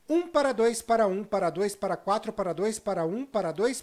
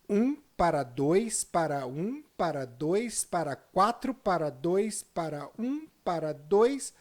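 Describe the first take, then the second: First: The numbers are said quickly. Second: The numbers are said slowly.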